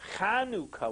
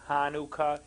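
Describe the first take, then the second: First: The word begins with a guttural throat sound. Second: The word begins with a plain H sound. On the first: The speaker calls it right. "the proper way of pronouncing is Chanukah with a guttural" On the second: The speaker calls it wrong. "it's not Hanukkah with an H sound"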